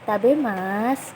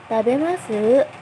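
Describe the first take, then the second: First: The middle syllable ma is lengthened instead. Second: The final syllable is lengthened with a rising pitch. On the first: The speaker calls it wrong. "bukan emaknya yang dipanjangin" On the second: The speaker calls it right. "sunya yang bagian terakhirnya yang dipanjangin"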